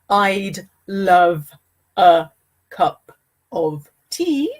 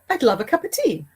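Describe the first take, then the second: First: Each word is said separately and carefully. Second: The words run together with reduced sounds. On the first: The speaker calls it wrong. "the natural way of saying this is not" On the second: The speaker calls it right.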